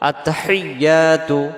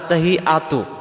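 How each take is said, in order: First: The y sound in the middle is doubled. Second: The y sound in the middle is missing. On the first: The speaker calls it right. "এই তাসজিদটা সহ আদায় করার জন্য ... এমন আওয়াজ হবে" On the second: The speaker calls it wrong. "এই শব্দটাতে আমরা কি ভুল করে ফেলি, আমাদের উচ্চারণে"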